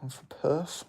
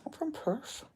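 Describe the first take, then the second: First: Said in the usual way. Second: "I'm from Perth." said much higher and softer; squeaky mock voice. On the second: Shown as a demonstration. Streamer tries the Perth line again in a silly high voice. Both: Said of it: "I don't know what accent I was trying to do".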